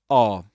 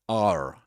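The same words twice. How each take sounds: First: It is said with a British accent, no r. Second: It is said with an American accent, with r. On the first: The speaker calls it right. "This is are" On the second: The speaker calls it wrong. "You don't say are as in American English"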